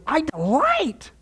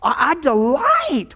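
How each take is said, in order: First: High, slow "I delight"; savouring "delight"; slow relished delight. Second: Slow, high, savoured "delight"; dwelling fondly on "delight"; drawn-out delight. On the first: Shown as a demonstration. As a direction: linger over "delight" lovingly. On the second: Acted. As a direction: stretch "delight" out with relish. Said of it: "verse eight says this".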